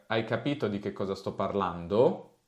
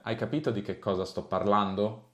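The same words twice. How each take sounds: First: The voice rises sharply at the very end. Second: The voice rises slightly, then falls at the end. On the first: "Che sale molto alla fine" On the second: "cercando di fare un accento più standard"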